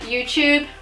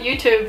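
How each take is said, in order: First: The second syllable starts with a ch sound. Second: The second syllable starts with a clear t sound. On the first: This is how Australians and New Zealanders say it. "Australians and here as well, we'll call it YouTube" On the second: This is how Americans say it. "you guys in America, you call it YouTube"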